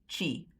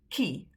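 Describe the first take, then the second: First: It begins with a ch sound. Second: It begins with a k sound. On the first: The speaker calls it wrong. "You don't pronounce the one spelled with a T as chi" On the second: The speaker calls it right. "It's ki, like a K"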